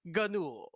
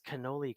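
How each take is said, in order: First: The word ends without its final vowel. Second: The word ends with a clear final vowel.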